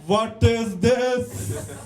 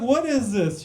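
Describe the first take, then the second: First: Put-on slow, stretched Indian accent; hammed-up Indian-accent coaching demo. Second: Said in the usual way. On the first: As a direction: overdo the Indian accent, dragging each word. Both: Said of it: "why was her accent so good?".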